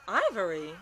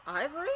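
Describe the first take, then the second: First: Louder falling dismayed cry; loud disbelief. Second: High rising shocked question; surprised question. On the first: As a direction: blurt the name out in dismay. Shocked at surprise entrant. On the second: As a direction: ask it in sheer surprise. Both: Real, not acted.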